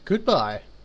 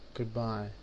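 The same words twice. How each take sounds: First: It is said in a more cheerful tone. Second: It is said in a miserable, depressed tone.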